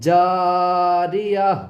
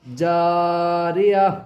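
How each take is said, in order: No difference in how they are said.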